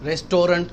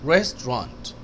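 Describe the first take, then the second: First: The middle syllable is fully pronounced. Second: The middle syllable is dropped. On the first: The speaker calls it wrong. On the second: The speaker calls it right.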